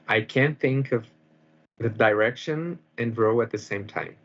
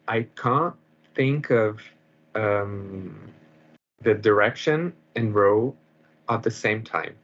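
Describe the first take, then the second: First: It is said in an American accent. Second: It is said in a British accent.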